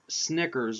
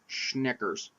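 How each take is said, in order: First: The word begins with a plain s sound. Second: The word begins with a sh sound. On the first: The speaker calls it right. "I can pronounce it now" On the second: The speaker calls it wrong. "I keeps on saying Schnickers, like I was in Germany"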